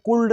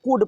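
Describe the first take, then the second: First: "कुल्ड" with L voiced before D; L sounded. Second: "कुड" with short vowel straight into D; silent L. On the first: Teacher shows what not to read, L sounded in "कुल्ड". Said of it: "नहीं पढ़ते हैं". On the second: Teacher gives the correct reading, L silent in "कुड". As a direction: say "कुड" with no L sound. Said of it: "इसलिए कुड पढ़ते हैं". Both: Shown as a demonstration.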